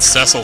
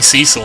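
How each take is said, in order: First: The first vowel is a short weak 'eh' sound. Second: The first vowel is a long 'ee' sound. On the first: This is the official pronunciation. "sounds too much like meh... that weak E sound" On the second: This is the pronunciation used locally. "I've been saying Cecil all my life"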